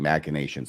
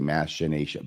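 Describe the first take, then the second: First: The ch is said as a hard k sound. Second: The ch is said as a soft sh sound. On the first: The speaker calls it right. "It is a hard C sound" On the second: The speaker calls it wrong. "A lot of people say machination"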